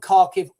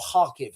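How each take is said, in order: First: It is said with a usual English pronunciation. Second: It is said with the local Ukrainian pronunciation.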